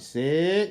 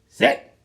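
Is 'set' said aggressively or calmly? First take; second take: calmly; aggressively. First: It is said calmly at a normal pace. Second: It is said sharply, fast and aggressively.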